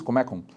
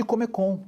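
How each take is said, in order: First: Comecon stressed on the middle syllable, ME; Russian intonation. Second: Said in the usual way. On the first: Shown as a demonstration. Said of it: "a sílaba tônica no meio". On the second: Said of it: "na entonação russa".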